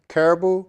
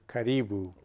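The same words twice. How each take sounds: First: It is said the common English way. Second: It is said the original Swahili way. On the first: "everyone says caribou" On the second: "The correct pronunciation is caribou"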